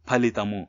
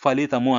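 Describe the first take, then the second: First: The first sound is a breathy p, lips touching. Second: The first sound is an f, lips apart. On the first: The speaker calls it right. "అట్లా పలకాలి" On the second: The speaker calls it wrong. "యాక్చువల్గా ఫలితము అనకూడదు"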